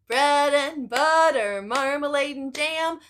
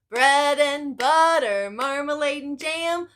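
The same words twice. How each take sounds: No difference in how they are said.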